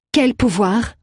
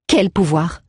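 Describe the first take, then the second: First: "Quel pouvoir?" repeated higher with a rising end; repeated with rising tune. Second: Said in the usual way. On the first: A narrator's reading. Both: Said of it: "répéta-t-elle".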